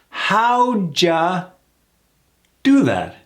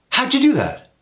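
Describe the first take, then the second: First: It is said slowly with each part drawn out. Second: It is said quickly at natural conversational speed. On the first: "Let's slow that down" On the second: "when you hear it in the context of a sentence"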